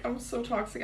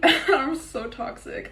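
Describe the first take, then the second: First: Softer repeat. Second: Giggled through, slow and higher; laughing confession. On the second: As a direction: laugh it out, half-proud. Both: Real, not acted.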